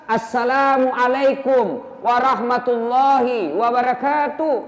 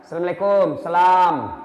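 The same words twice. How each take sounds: First: Slow, every syllable of "Assalamualaikum warahmatullahi wabarakatuh" spoken out clearly; careful full greeting; slow full salam. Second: Hurried, swallowed greeting; sloppy half-said salam; clipped rushed salam. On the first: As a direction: say the whole greeting slowly and completely. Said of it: "Itu salam yang betul". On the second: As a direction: toss off the salam carelessly. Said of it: "Apa Jina bilang?". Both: Shown as a demonstration.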